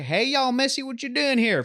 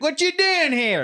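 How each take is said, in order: First: Friendly southern guy. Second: High, slow threatening drawl; menacing southern guy. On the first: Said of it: "That same guy would, to you, would be like". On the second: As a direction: challenge an outsider, slowly. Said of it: "For me, it's like". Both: Retold or imitated.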